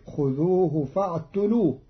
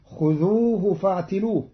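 First: فاعتلوه with u after the t; Qalun reading. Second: Said in the usual way. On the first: Shown as a demonstration. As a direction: say فاعتلوه as "fa'tulūh". (فاعتلوه بضم التاء) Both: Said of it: "قرأ قالون كلمة فاعتلوه بضم".

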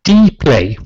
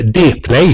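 First: Dplay said "dee-play"; English letter pronunciation. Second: Dplay said "deh-play"; Swedish letter pronunciation. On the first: (Dplay med engelskt D, "di-plej") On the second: (Dplay med svenskt D, "de-plej") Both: Shown as a demonstration. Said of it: "hur man nu vill, uttala det".

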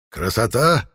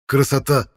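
First: Красота? with a rising questioning tune; asking question. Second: Красота! exclaimed high with a falling tune; sincere exclamation. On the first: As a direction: ask Красота? with the pitch rising at the end. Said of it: "спросил составлявший надпись Арнвид". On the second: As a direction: say Красота! as heartfelt agreement with a falling end. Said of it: "совершенно искренне согласился Ивар". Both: A narrator's reading.

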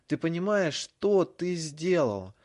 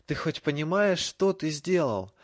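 First: Loud, high, slow furious yell; shouting. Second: Choked with rage, louder and slow; furious. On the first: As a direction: scream it at him. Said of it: "Его голос перешёл на крик". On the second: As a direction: spit it out in fury. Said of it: "Драко задохнулся от ярости". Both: A narrator's reading.

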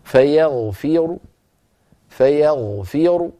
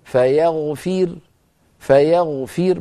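First: Slow فيغفر ending in a heavy r with a faint, short u; rawm, faint u. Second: Slow فيغفر ending on a light, vowelless r; stop with sukun. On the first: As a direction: stop on فيغفر but let a slight u escape after the heavy ر. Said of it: "بضمة صوتها منخفض". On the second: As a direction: recite فيغفر and stop dead on a thin ر. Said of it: "لو وقفت عليه بالسكون أقول". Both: Shown as a demonstration.

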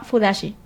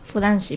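First: "fudashi" said without the n; "fudashi" with an open second syllable, no nasal before shi; mispronounced. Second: "Fudanshi" with an n before shi; "Fudanshi" repeated quietly with the n restored; corrected pronunciation. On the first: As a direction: drop the n in "fudashi". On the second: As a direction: sound the n in "Fudanshi", softly. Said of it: "perdón, lo pronuncio mal". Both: Real, not acted.

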